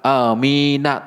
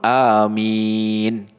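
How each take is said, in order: First: The word ends with a vowel after the n. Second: The word ends on a silent, closed n. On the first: The speaker calls it wrong. "nunnya itu nggak dibaca amina" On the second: The speaker calls it right. "Disukun amin, begitu"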